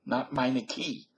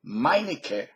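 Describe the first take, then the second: First: "Meineke" said MY-nuh-kee, slow; mock wrong "Meineke" ending in ee; wrong pronunciation. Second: "Meinecke" said MY-nih-kuh; German "Meinecke" ending in uh; correct pronunciation. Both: Shown as a demonstration. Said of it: "pronounce it correctly".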